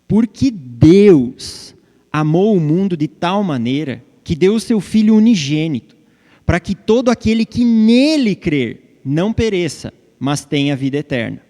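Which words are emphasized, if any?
Deus. The emphasis falls on God and believing in him.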